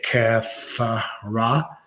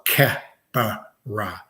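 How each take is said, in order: First: The middle consonant is an f sound. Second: The middle consonant is a p sound.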